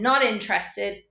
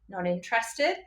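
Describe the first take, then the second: First: The voice falls at the end like a statement. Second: The voice rises at the end like a question. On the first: The prospect is refusing. "they've said not interested" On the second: The seller mirrors it back as a question. "you raise your voice slightly"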